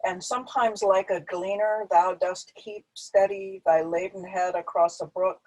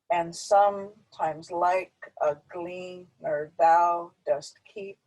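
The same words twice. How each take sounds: First: Said in the usual way. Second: Slow, each second beat punched; iambic emphasis. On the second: Shown as a demonstration. Teacher reading Keats to show the meter, slow stressed beats. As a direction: read it da-dum, stressing like, glean, thou, keep. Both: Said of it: "So we can read it emphasizing that".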